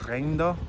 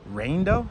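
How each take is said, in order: First: It is said in a Spanish accent. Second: It is said in an American accent.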